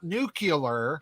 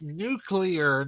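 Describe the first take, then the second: First: The word ends with a 'cular' sound. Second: The word ends with a clear 'clear' sound. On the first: The speaker calls it wrong. "not nuclear" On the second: The speaker calls it right. "no, mister President, it's nuclear"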